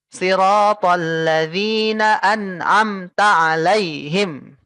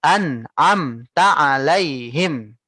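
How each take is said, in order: First: Siratal ladzina an'amta alaihim chopped letter by letter; letter by letter reading. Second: An'amta alaihim linked smoothly, slow; flowing reading. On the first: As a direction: read each letter separately on purpose. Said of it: "satu-satu kamu baca per huruf". (dibaca satu-satu per huruf, salah) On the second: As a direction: let An'amta alaihim flow. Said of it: "Gitu ya". (An'amta alaihim dibaca mengalir) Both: Shown as a demonstration.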